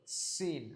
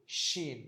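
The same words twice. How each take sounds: First: "সিন" slow, with sharp s; Arabic sin. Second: "শিন" slow, with sh; Arabic shin. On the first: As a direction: stretch "সিন" from a dental s. ("সিন" দন্ত স দিয়ে টেনে) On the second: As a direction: stretch "শিন" from a palatal sh. ("শিন" তালব্য শ দিয়ে টেনে) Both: Shown as a demonstration. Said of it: "দুইটার উচ্চারণ কিন্তু পার্থক্য আছে".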